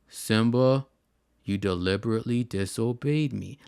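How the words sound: It is said flatly, like a robot.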